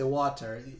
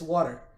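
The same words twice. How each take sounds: First: It is said in a Jamaican accent. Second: It is said in an American accent. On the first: "Jamaica we say water" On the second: "even in America it's water. It sounds like it, it's spelled W A D D E R"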